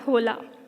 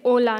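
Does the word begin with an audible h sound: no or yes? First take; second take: yes; no. First: The word starts with an audible h sound. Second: The word starts with a vowel, no h sound. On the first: The speaker calls it wrong. "not hola" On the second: The speaker calls it right. "you remove this H when you say it out loud. You say hola"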